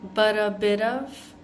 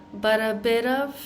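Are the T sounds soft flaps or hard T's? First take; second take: flaps; flaps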